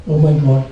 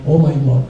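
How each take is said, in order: Both takes have the same delivery.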